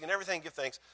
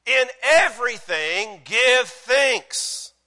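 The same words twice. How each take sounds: First: Said in the usual way. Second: Loud, high, drawn-out preaching; emphatic proclamation. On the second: Real, not acted. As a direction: declare it slowly, word by word. Preacher proclaims verse as upgrade.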